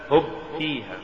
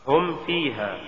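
First: هب فيها with ب where م belongs; faulty reading of هم فيها as هب فيها; mispronounced م. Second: Said in the usual way. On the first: Shown as a demonstration. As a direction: say هب فيها, lips closing on a b. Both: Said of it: "تقرأ لحنا".

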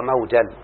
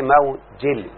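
First: موجل said mawjal, open a before the final l; with fatha. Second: موجل said mawjil, i before the final l; with kasra. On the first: Teacher giving the fatha reading, موجل as mawjal. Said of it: "فتحوا". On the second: Teacher giving the majority kasra reading, موجل as mawjil. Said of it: "والأكثرون بالكسر". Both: Shown as a demonstration.

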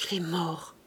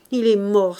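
First: Soft, low, like a breath; hushed, lowered voice; low murmur. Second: Mildly tearful, loud outburst; full-voiced lament, understated grief; lamenting aloud. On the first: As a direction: let it out as a mere breath. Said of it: "murmura d'une voix basse comme un souffle". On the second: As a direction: mourn him out loud. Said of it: "parlent souvent à haute voix". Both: A narrator's reading.

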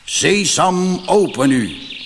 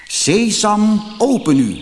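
First: The robber chief intones the magic words; solemn robber chief. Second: Pitched high and louder, a careful echo of the chief's command; copying the chief. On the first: Robber chief commands the rock wall, solemn and raised. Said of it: "trok een plechtig gezicht en zei". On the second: Ali Baba nervously copies the robber chief at the rock. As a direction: try the magic words just as the chief said them. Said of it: "zoals hij de roverhoofdman had horen zeggen". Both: A narrator's reading.

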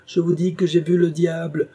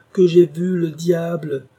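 First: Higher, louder furious claim; angry insistence. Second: Much higher, louder and slow, "j'ai" hit hard; furious shout. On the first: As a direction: insist in fury. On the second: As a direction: drag out the repeat as a roar. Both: A narrator's reading. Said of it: "sa colère se rua encore sur Alan".

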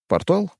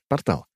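First: Rising, puzzled "Портал?"; puzzled question. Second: Falling, offhand "портал."; casual realization. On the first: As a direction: ask "Портал?" with a questioning lift. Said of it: "оглянулся я". (недоумённо, с подъёмом на «Портал?») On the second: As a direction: drop "портал." like it's nothing. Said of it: "Ах, да". (небрежно, с падением на «портал.») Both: Acted.

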